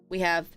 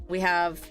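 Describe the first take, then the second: Both takes have the same delivery.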